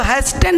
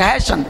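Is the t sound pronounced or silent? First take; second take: pronounced; silent. First: The t sound is pronounced. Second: The t sound is silent. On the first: The speaker calls it wrong. "इसको हैस्टन नहीं पढ़ेंगे" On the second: The speaker calls it right.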